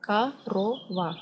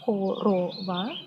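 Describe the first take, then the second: First: KOROVA with the first o turned to ah, "ka-RO-va"; real Russian pronunciation. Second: KOROVA sounded out with clear o's, "ko-ro-va"; pronounced as written. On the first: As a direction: say "korova" as "ka-ro-va", syllable by syllable. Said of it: "but when you pronounce it". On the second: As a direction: say "korova" as spelt, keeping the first o a full oh. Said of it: "it's written like". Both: Shown as a demonstration.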